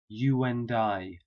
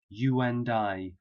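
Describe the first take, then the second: First: A w sound links 'you' smoothly into 'and'. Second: The same.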